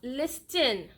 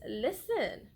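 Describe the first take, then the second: First: The T sound is pronounced in the word. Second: The T sound is silent in the word. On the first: The speaker calls it wrong. "It is not listen" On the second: The speaker calls it right. "It is listen. ... silent T rule"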